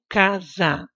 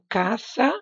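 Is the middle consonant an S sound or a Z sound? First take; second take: Z sound; S sound. First: The middle consonant is a buzzing Z sound. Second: The middle consonant is a hissing S sound. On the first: This is how the word is read. "mas eu leio casa, porque tem o som do Z" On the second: This is how the word is written. "Eu escrevo"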